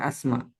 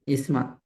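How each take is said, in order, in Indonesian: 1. Kata ini diawali vokal 'a'. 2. Kata ini diawali vokal 'i'. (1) "bukan asma" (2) "tapi isma"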